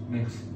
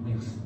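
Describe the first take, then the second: No difference in how they are said.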